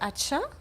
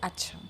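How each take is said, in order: First: It is said like a doubting question. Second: It is said like a plain statement. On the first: The speaker doubts what was said. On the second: The speaker accepts what was said.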